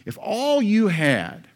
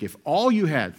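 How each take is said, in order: First: "all" drawn out high and loud, slowly; slow, emphatic "If all you had" with "all" lifted and held; stress on all. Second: Said in the usual way. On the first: Real, not acted. Repeats phrase, second time stressed.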